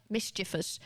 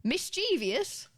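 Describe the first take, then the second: First: "Mischievous" as MIS-chi-vus; correct pronunciation. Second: "Mischievous" stretched high as mis-CHEE-vee-us; slow, higher "Mischievous" with an extra ee syllable; common mispronunciation. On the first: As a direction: say "Mischievous" in three syllables, like mischief plus us. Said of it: "up to mischief". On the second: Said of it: "isn't a word". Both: Shown as a demonstration.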